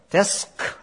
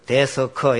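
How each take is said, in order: First: The word is said as one single syllable. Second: The word is said as three full syllables. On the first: The speaker calls it right. "한음절, 데스커, 이러라 했어요" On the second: The speaker calls it wrong. "이래 세 글자로 발음하면 안 되고요"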